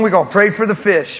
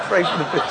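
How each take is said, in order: First: Higher and louder, laughing joke; grinning punchline through laughter. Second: Laughing. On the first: Pastor joking to host about the fish, laughing. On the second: Pastor repeating fish joke to host, fading laugh. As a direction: dissolve the joke into chuckles. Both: Real, not acted.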